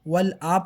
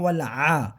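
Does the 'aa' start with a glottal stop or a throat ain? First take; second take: glottal stop; throat ain. First: The vowel starts with a plain glottal stop. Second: The vowel starts with a throat ain sound. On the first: The speaker calls it wrong. "वल आ पढ़ते हैं" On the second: The speaker calls it right. "हमज़ा नहीं पढ़ना"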